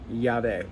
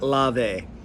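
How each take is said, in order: First: The word begins with the Spanish double-L sound. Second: The word begins with a plain L sound. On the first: The speaker calls it right. "the double L, me llamo. Yeah, it makes that noise" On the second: The speaker calls it wrong. "It's not Lave"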